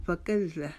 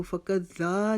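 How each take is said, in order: First: फ़कत ज़ा as "fa-kazz-za"; careful model, quick final vowel in फ़कत ज़ा; doubled z, short ending. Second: फ़कत ज़ा with a dragged "zaa"; wrong-way demo, stretch the ज़ा; mispronounced long ending. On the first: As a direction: lean on the z, cut the ज़ा short. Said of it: "रुकावट से उसको पढ़ेंगे". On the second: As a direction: lengthen the end of फ़कत ज़ा. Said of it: "इसको फ़कत ज़ा नहीं पढ़ेंगे". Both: Shown as a demonstration.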